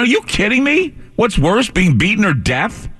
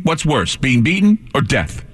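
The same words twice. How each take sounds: First: High, slow, disbelieving repeat; incredulous. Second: Said in the usual way. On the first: Retold or imitated. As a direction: throw the question back, aghast.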